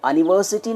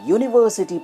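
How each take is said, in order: First: The word begins with a plain vowel sound. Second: The word begins with a y consonant sound. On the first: The speaker calls it wrong. "आप इसको अनिवर्सिटी नहीं पढ़ते हैं" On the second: The speaker calls it right. "यूनिवर्सिटी पढ़ते हैं"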